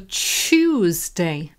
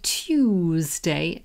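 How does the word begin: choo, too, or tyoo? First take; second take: choo; tyoo. First: The word begins with a 'choo' sound. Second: The word begins with a 'tyoo' sound. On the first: This is the form a major dictionary lists first. "there's also Chewsday" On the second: This is how the speaker's own community says it. "So we say Tuesday"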